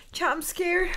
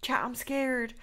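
First: Nervous, higher and louder; scared. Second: Said in the usual way. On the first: Real, not acted. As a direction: say it like you're frightened.

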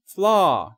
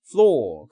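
First: "flaw" with an open American "ah" vowel; American-style "flaw", drawn out as "flaah"; American pronunciation. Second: "flaw" with a rounded British "aw" vowel; British-style "flaw", lips rounded on a long "aw"; British pronunciation. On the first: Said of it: "발음이 미국식은". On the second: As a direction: say "flaw" the British way, close to "floh". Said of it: "영국식은". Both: Shown as a demonstration.

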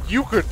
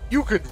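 The two takes are said the same way.

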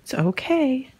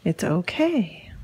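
First: Said in the usual way. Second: Lower, slow and soothing; calm the dog down gently. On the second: Real, not acted. Owner calming nervous dog, low and slow.

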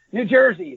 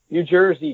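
First: Higher, curt correction; lightly acted testy retort; mild snap. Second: Said in the usual way. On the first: A narrator's reading. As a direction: correct him with a touch of irritation. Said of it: "the man snapped". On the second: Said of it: "Bud repeated".

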